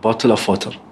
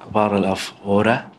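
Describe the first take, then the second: First: The t in bottle is said crisply. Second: The t in bottle is a soft flap.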